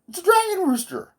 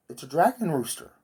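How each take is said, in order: First: Much higher, louder amazed cry; excited outburst. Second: Said in the usual way. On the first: Shown as a demonstration. Realising the hallucination is a dragon rooster, excited high cry. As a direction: blurt it out in sudden delight.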